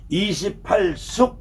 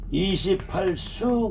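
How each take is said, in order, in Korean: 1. 마지막 음절은 k 소리로 끝나요. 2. 마지막 음절은 열린 모음으로 끝나요. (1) "이십팔 숙 그러기도 하고" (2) "이십팔 수 그러기도 해요"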